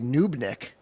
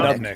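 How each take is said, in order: First: The first vowel is a long 'oo' sound. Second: The first vowel is a short 'uh' sound. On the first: The speaker calls it wrong. "here's one that I've always pronounced wrong. I always say" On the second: The speaker calls it right. "but it's"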